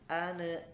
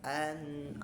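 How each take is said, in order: First: The n bounces off with a short echo vowel. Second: The n is held steady without any echo vowel. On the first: The speaker calls it wrong. "itu memantul" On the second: The speaker calls it right. "seharusnya dia tawasyud ya"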